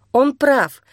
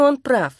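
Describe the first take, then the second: First: "прав" lifted and stressed, falling; "Он прав" with weight on "прав". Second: "он" stressed, "прав" softened; "он прав" with weight on "он". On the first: Тася admits to herself he is right, stress on "прав". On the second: Тася repeats her agreement. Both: A narrator's reading.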